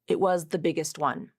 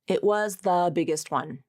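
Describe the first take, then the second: First: 'The' is a short th with no vowel. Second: 'The' is stressed with a full vowel. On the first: "here it is with the reduction" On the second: "here's the sentence without the reduction"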